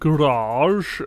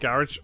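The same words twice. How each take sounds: First: The word has an American pronunciation. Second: The word has a British pronunciation.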